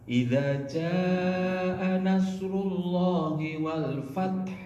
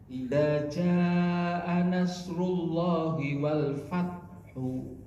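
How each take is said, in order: First: The last word ends on a consonant with no vowel. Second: The last word ends with a soft, quiet final vowel. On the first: "Dua-duanya taknya disukun, haknya juga disukun" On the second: "tetap dibaca doma tapi pelan"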